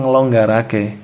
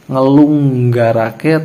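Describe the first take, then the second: First: The vowel after 'ngel' is an 'o' sound. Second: The vowel after 'ngel' is a 'u' sound. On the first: The speaker calls it right. "pasti ngelonggarake" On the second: The speaker calls it wrong. "nggak mungkin yang lain"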